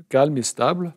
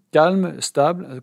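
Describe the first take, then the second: First: Said in the usual way. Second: Calme, stable said slowly and higher, each word weighed; defining the term for students, slow and deliberate; slow gloss. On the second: Shown as a demonstration. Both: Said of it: "c'est ce que l'on appelle donc shine ou samatha".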